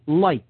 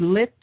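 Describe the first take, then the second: First: The vowel is a long 'eye' sound. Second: The vowel is a short 'i' sound. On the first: "if you pronounce it with a long I, that's light" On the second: "you could say lit"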